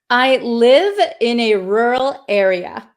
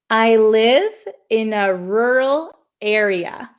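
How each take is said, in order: First: It is said at a normal speed. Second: It is said a little more slowly. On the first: "I'm going to say it for you now" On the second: "I'm going to say it a little bit slower"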